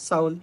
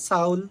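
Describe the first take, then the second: Both takes have the same delivery.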